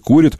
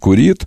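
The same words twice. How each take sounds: First: The stress is on the first syllable. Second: The stress is on the second syllable. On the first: This is the newer stress becoming the norm. "На корень постепенно сползает ударение" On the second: This is the older accepted stress. "было"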